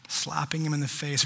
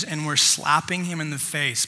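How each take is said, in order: First: Quiet, lingering weight on "him"; softer, stress on him. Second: Said in the usual way. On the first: Real, not acted. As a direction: say "Slapping him in the face" softly, leaning on "him". Repeats the verse to let it sink in.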